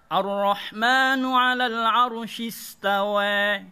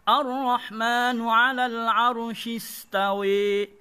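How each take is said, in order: First: The final vowel is shifted only slightly toward 'e'. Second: The final vowel is shifted strongly toward 'e'. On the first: "Bagi Warosh" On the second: "Bagi Imam Hamzah dan Ali Al-Kisai"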